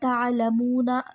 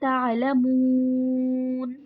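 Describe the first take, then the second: First: The word ends in 'na', vowel held briefly. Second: The word ends in 'n', vowel stretched long. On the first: The reader continues without stopping. "बीच में एक वर्ड आता है" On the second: The reader stops on this word. "पहले आपने लंबा किया, दो, चार या फिर छह अलिफ के बराबर"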